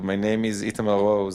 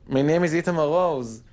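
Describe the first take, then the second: First: It is said in a plain, unenthusiastic tone. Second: It is said in an upbeat, positive tone.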